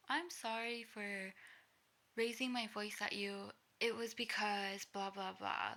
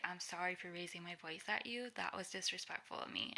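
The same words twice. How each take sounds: First: Slow, louder apology sliding into excuses; self-justifying apology. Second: Said in the usual way. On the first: Acted. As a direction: drag out a mock apology, then justify it. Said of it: "it doesn't really help if you go into". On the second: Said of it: "you just need to say".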